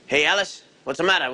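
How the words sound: It is said in an imitated performer's voice. The speaker calls it wrong. "You are aping the performer"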